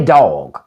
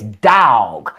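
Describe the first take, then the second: First: Said in the usual way. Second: DOG drawled as D-A-W-G, "dawg"; long country "da-awg"; down-South dog. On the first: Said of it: "They don't say dog". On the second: Shown as a demonstration. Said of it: "D A W G".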